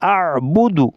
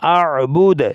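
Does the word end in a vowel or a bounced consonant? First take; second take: vowel; bounced consonant. First: The word ends with a short u vowel. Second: The word ends on a bounced, echoing d. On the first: The reading continues without stopping. "আর বুদু পড়তে হবে" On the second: The reader stops at this word. "ওয়াকফ করলে আর বুদ ওই দাল সাকিন কলকলা করতে হবে"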